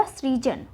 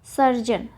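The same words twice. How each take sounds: First: सृजन opened on a sri cluster; sri, not sar, in सृजन; correct form सृजन. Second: सर्जन with r closing the first syllable; the mistaken सर्जन, sar then jan; wrong form सर्जन. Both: Shown as a demonstration. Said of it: "सर्जन ना होके क्या होगा".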